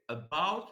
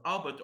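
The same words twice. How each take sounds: First: "about" with the second syllable stressed; correctly stressed a-BOUT. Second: "about" wrongly stressed on the "a"; stress on first syllable. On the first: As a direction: say "about" leaning on "bout", the first vowel weak. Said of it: "it is correct to say". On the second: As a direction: say "about" as A-bout, front-stressed. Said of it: "any other pronunciation is considered incorrect". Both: Shown as a demonstration.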